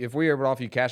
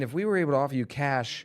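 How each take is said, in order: First: It is spoken quickly, in a rush. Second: It is spoken slowly and unhurried. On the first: It sounds like a rehearsed sales pitch. The speaker calls it wrong. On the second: It sounds like a natural conversation. The speaker calls it right.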